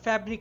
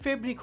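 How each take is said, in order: First: The first vowel sounds like 'a' in 'cat'. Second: The first vowel sounds like 'e' in 'bed'. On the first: The speaker calls it right. "সেটা আর ফ্যাব্রিক রয়নি" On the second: The speaker calls it wrong. "ফেব্রিক হয়ে গেছে"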